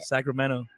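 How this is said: The t sounds soft, almost like a d. "you didn't say your T. So it sounds more like a D"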